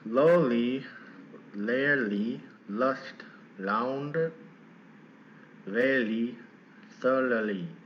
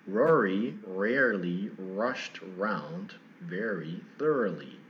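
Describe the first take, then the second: First: The R sounds are made like L sounds. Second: The R sounds are clear, with no L quality. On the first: The speaker calls it wrong. "If I did that" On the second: The speaker calls it right. "I'm going to keep my tongue pulled back"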